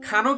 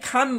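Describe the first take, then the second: First: The word ends with an added final vowel. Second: The word ends on the final consonant. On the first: The speaker calls it wrong. "কেউ কিন্তু এটাকে খানো বলে না" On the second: The speaker calls it right. "এটাকে সবাই খান বলে"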